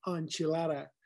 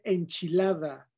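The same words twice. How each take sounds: First: "enchilada" as American on-chuh-LAH-duh; anglicized pronunciation. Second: Said in the usual way. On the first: Shown as a demonstration. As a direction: say "enchilada" softly with English vowels. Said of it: "no enchilada". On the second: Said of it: "Se dice enchilada".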